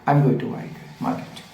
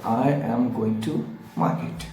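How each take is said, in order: First: The sentence is spoken quickly. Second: The sentence is spoken slowly. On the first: "इस तरीके से धीरे धीरे आपको तेज करना है" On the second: "धीरे धीरे उसको बोलना शुरू करें"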